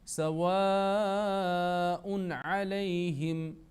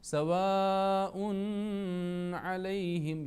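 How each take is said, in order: First: The n sound is pronounced clearly and fully. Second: The n sound is hidden with a nasal hum. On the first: The speaker calls it right. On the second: The speaker calls it wrong.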